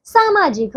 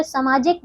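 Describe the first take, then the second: First: सामाजिक said saa-maajik; long first vowel. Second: सामाजिक said sa-maajik; short first vowel. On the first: Teacher correcting pupils, सामाजिक with long saa. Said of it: "सामाजिक होता है". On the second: Teacher showing wrong सामाजिक, first a short. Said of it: "सामाजिक गलत है". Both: Shown as a demonstration.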